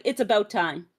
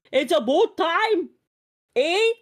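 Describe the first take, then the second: First: Said in the usual way. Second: High, drawn-out exaggerated Canadian vowels; mock Canadian accent. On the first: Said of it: "I will look at you like". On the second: Mocking the accent she is accused of, exaggerated Canadian.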